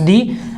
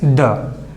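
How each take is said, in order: First: The word is said in its full, stressed form. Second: The word is said in its weak, unstressed form. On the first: "Whenever stressed, it becomes the" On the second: "whenever not stressed, it is the"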